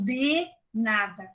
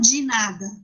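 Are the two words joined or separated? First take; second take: separated; joined. First: The two words are said clearly apart. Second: The two words run together as one. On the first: This is how it is written, not said. "Eu não falo de nada" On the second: This is how speakers really say it. "porque eu falo de nada"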